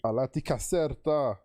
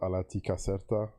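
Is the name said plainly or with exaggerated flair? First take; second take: exaggerated; plainly. First: The name is said with exaggerated, animated flair. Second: The name is said plainly, without flourish.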